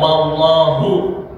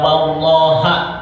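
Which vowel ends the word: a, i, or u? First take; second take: u; a. First: The word ends in the vowel u. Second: The word ends in the vowel a. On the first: "Jadi tidak"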